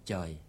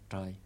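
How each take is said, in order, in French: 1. Le mot commence par un son 'ch'. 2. Le mot commence par un son 'tr'. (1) "Le Vietnamien du Nord, ils prononcent Choy" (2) "le Vietnamien du Sud, ils prononcent bien, ils prononcent Troy"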